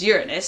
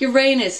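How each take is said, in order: First: The name is said the scientific way. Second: The name is said the common, everyday way. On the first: "the actual scientific pronunciation is Uranus" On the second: "such a terrible planet name"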